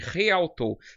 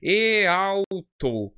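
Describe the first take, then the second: First: The word begins with an aspirated h sound. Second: The word begins directly with a vowel sound. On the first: The speaker calls it right. "você pronuncia como um re" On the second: The speaker calls it wrong. "Se vocês lerem no português, você vai ler assim"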